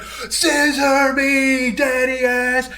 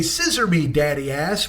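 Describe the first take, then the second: First: High, very drawn-out wrestler's call; imitated hype-man cry, held long and high; build-up catchphrase shout. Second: Said in the usual way. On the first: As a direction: stretch every word like a ring chant. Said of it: "like, this long build-up".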